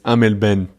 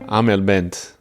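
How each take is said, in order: First: The final T of Bent is silent. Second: The final T of Bent is pronounced.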